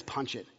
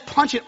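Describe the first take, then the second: First: Soft, low, calm command; quiet order. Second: A brisk, higher command; captain's order. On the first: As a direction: say it quietly, almost under the breath, sure of success. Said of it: "And the captain says". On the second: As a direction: call the order out like a captain launching the ship. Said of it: "the captain tells Lieutenant Sulu to go and, and, and to punch it". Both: Retold or imitated.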